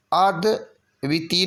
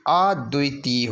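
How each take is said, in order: First: अद्वितीय broken as ad-viti; clipped wrong spelling. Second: अद्वितीय as ad-dui-tee; long tee. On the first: Teacher showing the error, अद्वितीय as ad-viti. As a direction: say vi quickly in अद्वितीय. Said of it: "नहीं होगा". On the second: Teacher correcting the spelling, अद्वितीय with long tee. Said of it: "ता में बड़ी की मात्रा". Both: Shown as a demonstration.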